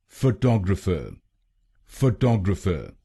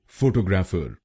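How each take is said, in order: First: फोटोग्राफर as fuh-TOG-ruh-fuh, stress on the second syllable; फोटोग्राफर with TOG stressed and the vowels around it reduced; correct pronunciation. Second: फोटोग्राफर said the common Indian way, stress on the first syllable and a full "ग्राफर" ending; फोटोग्राफर with even foh-toh-graa-far syllables, the wrong version. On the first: Teacher showing the right way: फोटोग्राफर stressed on TOG. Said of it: "इसकी सही pronunciation". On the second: Teacher demonstrating the common mistake: फोटोग्राफर said with the first syllable stressed. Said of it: "इस शब्द को गलत बोलते हैं".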